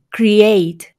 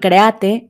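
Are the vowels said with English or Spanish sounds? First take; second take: English; Spanish. First: The vowels are said with an English I sound. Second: The vowels are said as in Spanish. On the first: The speaker calls it right. "Sino como I" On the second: The speaker calls it wrong. "no como suena en español"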